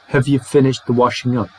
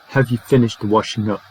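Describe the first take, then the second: First: The word have is reduced to a short weak form. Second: The same.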